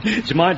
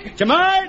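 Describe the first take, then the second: First: Said in the usual way. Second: High-pitched panicked cry; panicking. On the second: Acted. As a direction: yelp it in rising alarm. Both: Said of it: "Jones, will you be quiet?".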